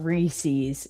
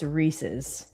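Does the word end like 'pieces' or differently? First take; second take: differently; like pieces. First: The ending does not sound like 'pieces'. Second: The ending sounds like 'pieces'. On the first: The speaker calls it wrong. "It's not Reese's" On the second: The speaker calls it right. "it's pronounced like feces"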